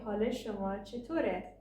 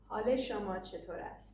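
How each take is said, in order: First: The final verb is reduced to a short e. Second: The final verb is said in full as ast. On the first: This is the everyday spoken way to ask. "In spoken Persian, we say" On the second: This is the very formal way to ask. "our most formal question is"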